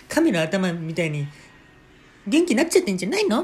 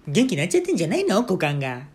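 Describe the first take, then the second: First: Teasing mother. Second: High, loud, quick teasing mother's voice; ribbing her husband about his crotch, louder. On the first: Mother teasing father at the table, shrill and loud. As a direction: tease him, loud and high-pitched. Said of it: "って言って". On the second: Mother teasing father at dinner, high and loud. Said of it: "僕の母親がね". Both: Retold or imitated.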